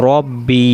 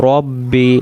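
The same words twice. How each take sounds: The two takes are said the same way.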